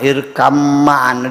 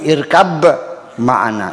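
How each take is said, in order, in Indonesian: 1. Bunyi b melebur ke m setelahnya. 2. Bunyi b dipertahankan sebelum m.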